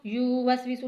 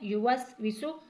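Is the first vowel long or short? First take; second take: long; short. First: The first vowel is drawn out long. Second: The first vowel is said short and quick. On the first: The speaker calls it wrong. "या को खींचना नहीं है" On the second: The speaker calls it right. "यू जल्दी से पढ़ना है"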